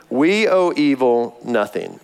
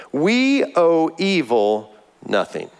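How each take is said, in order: First: Slow, with "owe" stressed; slow repeated motto. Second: Slow, with "we" stressed hard; emphatic motto. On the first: A pastor repeating his motto, "owe" stressed. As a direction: press on "owe" in "We owe evil nothing". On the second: A pastor hammering his motto to believers, "we" stressed. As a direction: lean on "we" in "we owe evil nothing". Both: Shown as a demonstration. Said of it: "a phrase that I use often".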